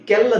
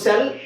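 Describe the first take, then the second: First: The word begins with a k sound. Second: The word begins with an s sound. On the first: The speaker calls it wrong. "ಕೆಲ್ ಅಂತ ಹೇಳಲ್ಲ" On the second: The speaker calls it right. "ಸಿ ಐಗೆ ಸಿ ಅಂತ ಹೇಳಬೇಕೆ"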